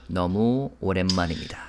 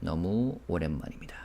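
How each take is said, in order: First: Imitating [name]. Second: Quieter, trailing repeat of the phrase; soft repeat. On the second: Shown as a demonstration. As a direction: say it again softly to yourself. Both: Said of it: "And then he said".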